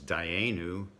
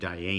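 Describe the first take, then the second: First: The last syllable has an oo vowel. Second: The last syllable has an ee vowel. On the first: This is the familiar standard pronunciation. "the word that we know as" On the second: This is the regional pronunciation from the old community. "the sound oo became e"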